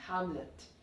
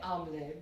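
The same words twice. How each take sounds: First: The H and the final T are sounded. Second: The H and the final T are silent. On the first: "But when you are saying in English, it will be Hamlet" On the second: "If we follow the French pronunciation, you won't be pronouncing the H, and the T will also not be pronounced"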